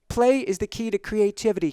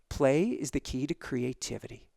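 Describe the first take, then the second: First: It is said at a normal pace. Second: It is said more slowly.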